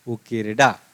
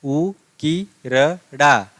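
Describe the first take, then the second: First: Said in the usual way. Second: उ की रडा, split slowly into parts; syllable by syllable. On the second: Shown as a demonstration. Teacher sounding out उकिरडा part by part for students. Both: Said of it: "आपको ठीक से पढ़ना है उसको".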